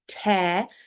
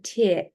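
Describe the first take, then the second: First: The vowel rhymes with hair. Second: The vowel rhymes with ear. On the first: It means a hole or split in something. "tear, like hair, or bear" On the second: It means water from the eye. "tear, like ear"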